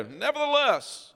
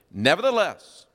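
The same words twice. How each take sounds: First: Nevertheless said much higher and slow, defiant; presumptuous. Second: Nevertheless said louder with a falling finish; stressed word. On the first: Israelites defying Moses, high and drawn-out Nevertheless. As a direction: sing out Nevertheless like stubborn defiance. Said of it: "I'm just gonna presume". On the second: Preacher marking the key word Nevertheless, emphatic. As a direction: lean hard on Nevertheless. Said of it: "underline that word". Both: Shown as a demonstration.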